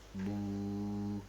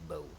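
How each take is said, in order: First: The vowel is a long steady 'oo'. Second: The vowel glides like 'ow'. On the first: The speaker calls it right. "It's a dhamma and connected to wow" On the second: The speaker calls it wrong. "you don't pronounce this word as wow lean like bow"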